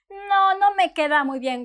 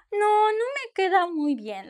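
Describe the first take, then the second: First: Mildly disappointed, drooping. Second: Mildly disappointed, pitched up and drooping. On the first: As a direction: let the letdown show a little. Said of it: "with your disappointment face". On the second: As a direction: sigh it out a touch. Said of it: "like that". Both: Shown as a demonstration. Customer after a bad fit, mildly disappointed.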